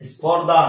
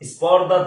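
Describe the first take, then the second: Both takes have the same delivery.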